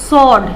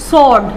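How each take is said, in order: The two takes are said the same way.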